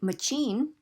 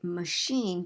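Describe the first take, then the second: First: The second syllable starts with a ch sound. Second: The second syllable starts with an sh sound. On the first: The speaker calls it wrong. "we wouldn't say machine" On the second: The speaker calls it right. "we would say machine, because the phonetic spelling is sh"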